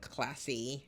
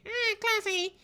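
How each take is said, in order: First: Said in the usual way. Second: Very high, loud put-on squeak; hammed-up squeal. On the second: Vlogger playfully echoing her own word, squealed mockingly. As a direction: echo your own word in a silly high voice.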